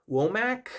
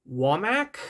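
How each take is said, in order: First: Womack with a long "oh" first vowel, rising high; second pronunciation guess. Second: Womack with an "ah" first vowel, rising like a question; unsure pronunciation. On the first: Reviewer retrying a songwriter's name, questioning "[name]" as WOH-mack. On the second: Reviewer unsure of a songwriter's name, questioning "[name]" as WAH-mack. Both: Real, not acted. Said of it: "please forgive my terrible pronunciations".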